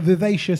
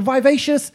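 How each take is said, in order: First: Vivacious with a short first i, vih-VAY-shus; correct pronunciation. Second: Vivacious said as "vye-VAY-shus"; mispronounced vivacious. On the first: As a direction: say vivacious with "viv" as in give. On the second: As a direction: say vivacious with a long i, like "vie". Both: Retold or imitated. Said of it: "it's not vivacious".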